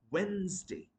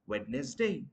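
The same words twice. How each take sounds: First: Wednesday as "WENZ-day"; correct pronunciation. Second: Wednesday as "WED-nes-day"; mispronounced Wednesday. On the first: Teacher correcting learners, Wednesday as "WENZ-day". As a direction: silent first d in Wednesday. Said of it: "it's going to be". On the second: Teacher rejecting the mistake, Wednesday as "WED-nes-day". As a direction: sound the d, three syllables in Wednesday. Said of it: "Not Wednesday". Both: Shown as a demonstration.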